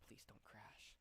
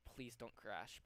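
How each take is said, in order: First: Barely audible, voiceless whisper; whispered plea. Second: Said in the usual way. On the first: Real, not acted. Streamer begging the software not to crash, whispered. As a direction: plead under your breath. Repeats the plea under breath.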